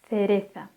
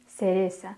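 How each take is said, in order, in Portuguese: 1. O primeiro som é um th ceceado. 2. O primeiro som é um s sibilante. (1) "com um som mais puxado, com a língua entre os dentes"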